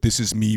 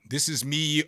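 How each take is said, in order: First: The voice is very close and quiet. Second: The voice is a few inches away. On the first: "right up on the microphone with no space, talking in a lower voice" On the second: "about four inches away from the microphone, talking a little bit louder"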